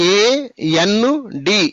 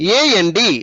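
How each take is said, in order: First: The letters are separated by clear pauses. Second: The letters are run together without pauses. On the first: The speaker calls it wrong. "ఇలా divide చేయకూడదు" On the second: The speaker calls it right. "ఆ విధంగా పలకాలి"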